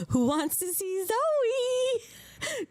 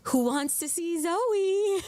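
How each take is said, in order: First: Very drawn-out, high-pitched coaxing; big slow sing-song tease; exaggerated teasing call. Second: Drawn-out coaxing call, rising on Zoe; slow sing-song teasing offer. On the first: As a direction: stretch it right out, climbing high on Zoe. Repeats the call, more exaggerated. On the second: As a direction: coax with a slow, stretched question. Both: Real, not acted.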